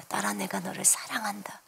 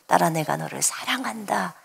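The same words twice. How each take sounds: First: 숨소리로 속삭이듯 "딸아, 내가 너를 사랑한다"; tender whisper. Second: Soft tender voice. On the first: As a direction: whisper it gently, barely voiced. Repeated as whisper. (부드럽게 속삭이는 주님의 음성) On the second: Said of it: "이렇게 저한테 처음으로 들려왔어요". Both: Retold or imitated.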